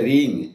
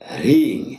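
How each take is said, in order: First: The word starts directly with the r. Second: An h sound comes before the r. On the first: The speaker calls it wrong. "অনেকে বলে রিং, রিং নয়" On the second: The speaker calls it right. "হ আগে র পরে"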